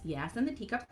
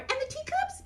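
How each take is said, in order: First: Said in the usual way. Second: High puppet chime-in; Mimi. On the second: Acted. Mimi adds to the table setting, high puppet voice. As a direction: pipe up in a tiny, high character voice.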